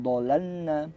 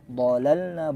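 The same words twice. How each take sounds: First: "dhalalna" with a light dh; wrong pronunciation. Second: "Dhalalna" with a full heavy dh; correct pronunciation. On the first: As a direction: say "dhalalna" without the heavy dh. (bacaan salah "dhalalna") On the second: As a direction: say "Dhalalna" with a thick dh. (bacaan benar "Dhalalna") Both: Shown as a demonstration. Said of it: "bukan dhalalna".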